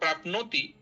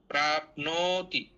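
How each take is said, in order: First: The 'o' vowel in 'no' is cut short. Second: The 'o' vowel in 'no' is held long. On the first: The speaker calls it wrong. "अगर प्राप्नोति ऐसा आप बोलेंगी" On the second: The speaker calls it right. "उसका दीर्घ ही उच्चारण करें"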